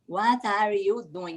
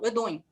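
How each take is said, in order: First: Each word is pronounced fully and separately. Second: The words run together in a reduced form. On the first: The speaker calls it wrong. "Ninguém vai falar assim" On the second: The speaker calls it right. "Eles falam"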